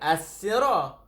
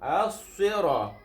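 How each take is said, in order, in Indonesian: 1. Bunyi s-nya biasa dan ringan. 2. Bunyi s-nya berat dan emfatik. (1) "dia bukan as-sira" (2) "Sad berbeza dengan sin"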